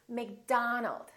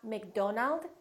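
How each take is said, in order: First: The stressed vowel is an 'ah' sound. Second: The stressed vowel is an 'oh' sound. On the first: The speaker calls it right. "it's McDonald" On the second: The speaker calls it wrong. "don't say O. It's not McDonald"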